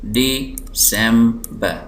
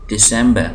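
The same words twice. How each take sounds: First: December slowly as DE, sem, ber; syllable by syllable. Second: Said in the usual way. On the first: Shown as a demonstration. Teacher showing three syllables, December slowly split. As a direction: separate the three beats of December. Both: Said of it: "तीन syllable".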